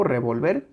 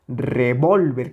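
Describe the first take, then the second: First: Revolver with the weight on the last syllable; stress on VER. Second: Revólver with an intense, stretched middle syllable; stress on VOL. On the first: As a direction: keep VOL light, end revolver on VER. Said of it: "esa intensidad". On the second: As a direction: give VOL the full weight in revólver. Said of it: "con esa intensidad". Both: Shown as a demonstration.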